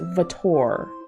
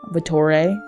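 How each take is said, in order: First: The name is said with an American pronunciation. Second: The name is said with an Italian pronunciation. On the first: "Vittor seems to be the accepted American way of saying their name" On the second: "the true Italian pronunciation would be Vittore"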